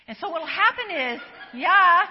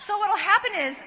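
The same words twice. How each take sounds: First: Laughing. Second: Said in the usual way. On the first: Real, not acted. Laughs mid-sentence, restarts.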